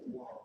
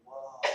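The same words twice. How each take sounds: First: "Whoa" said high and soft, amazed; a hushed, lifted gasp of wonder on "Whoa"; imitating an impressed stranger's "Whoa"; high awed whoa. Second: A hint of the stoned, stunned actor's "Whoa"; mock movie-star "Whoa", barely voiced; Keanu Reeves whoa. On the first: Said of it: "You're like". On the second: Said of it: "I want the Keanu Reeves".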